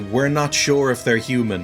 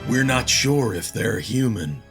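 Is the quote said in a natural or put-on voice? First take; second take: natural; put-on. First: It is said in the speaker's natural voice. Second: It is said imitating the character's voice.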